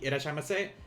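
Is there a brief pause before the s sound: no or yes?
no. It flows with no pause before the s. The speaker calls it wrong. "So it's not going to be irashaimase"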